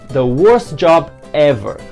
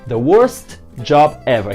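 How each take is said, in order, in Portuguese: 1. O t em worst é omitido. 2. O t em worst é claramente pronunciado. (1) "quando a gente fala naturalmente" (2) "Aqui eu estou forçando para pronunciar"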